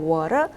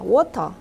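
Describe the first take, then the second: First: The T is softened and sounds like an R. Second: The T is pronounced as a crisp, strong T. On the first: "T가 양쪽에 모음 사이에 있어요. 그래서 water" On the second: "영국식 발음은요. 틀린 게 아니에요"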